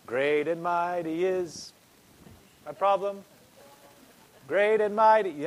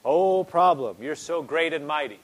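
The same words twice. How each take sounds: First: Mock solemn chant. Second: A mocking, loud "Oh" to the problem, then flattery that settles back; hammed-up praise of your own trouble; mock worship. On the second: Preacher mocking a worrier who praises the problem, mock adoring. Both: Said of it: "A lot of people are reverencing their problem".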